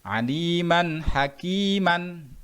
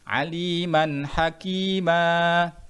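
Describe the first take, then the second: First: It ends with a final n sound. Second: It ends on a lengthened vowel without n.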